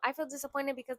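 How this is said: The tone is defensive and condemning. It condemns the other person. The speaker calls it wrong. "in a de- defensive kind of tone"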